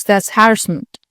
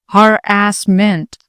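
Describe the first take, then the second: First: Said in the usual way. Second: Slow, drawn-out mocking echo of her word; subtle mockery. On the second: A narrator's reading. Officer mockingly echoing Blanche's word, slow and drawn out. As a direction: stretch each syllable to belittle her. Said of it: "subtle mockery in the inflections of the syllables".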